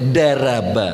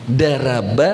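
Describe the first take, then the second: No difference in how they are said.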